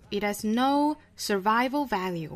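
It is said in an American accent.

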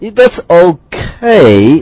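It is said in a hesitant, reluctant tone. The thing is below expectations. "但如果说你感觉非常犹豫 you kind of,You're hesitating"

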